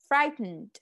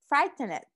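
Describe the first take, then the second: First: The ending is reduced and not fully pronounced. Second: The ending is pronounced fully as a separate syllable. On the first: The speaker calls it right. "Decimos frightened" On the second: The speaker calls it wrong. "esta parte de tend, que no, no la decimos frightened"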